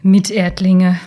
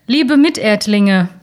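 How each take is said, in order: First: Sneering, drawn-out echo of the word; mocking. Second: Culkin's announcement. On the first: Old man mocks the spokesman's greeting, sneering. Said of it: "spottete er". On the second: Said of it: "ertönte die Stimme von Macaulay Culkin". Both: A narrator's reading.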